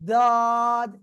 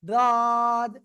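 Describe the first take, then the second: The two takes are said the same way.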